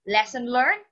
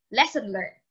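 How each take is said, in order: First: "Lesson learned?" asked with a rise on learned; questioning. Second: "Lesson learned." stated with a falling tune; confirming. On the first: Jack asking Gus if he learned, rising question. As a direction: check he got it, tune up at the end. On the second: Gus agreeing with Jack, firm falling answer. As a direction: settle it, land firmly on lesson. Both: Acted.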